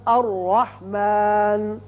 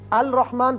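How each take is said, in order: First: The L merges into a doubled R sound. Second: The L is clearly pronounced before the R. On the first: The speaker calls it right. "रा की मिसाल" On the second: The speaker calls it wrong. "पढ़ना गलत है"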